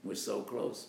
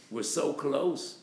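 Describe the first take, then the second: First: Said in the usual way. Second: "so" stretched high and loud, slowed; stress on so. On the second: Acted. Climber on the ladder crying out, "so" stretched. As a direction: lean hard on "so", reaching.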